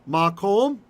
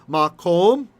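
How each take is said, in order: Both takes have the same delivery.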